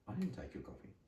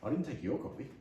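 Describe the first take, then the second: First: The word 'your' is not stressed. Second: The word 'your' is stressed.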